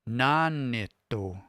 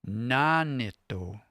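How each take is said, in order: First: The pitch is high on the first syllable. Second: The pitch is high on the first syllable.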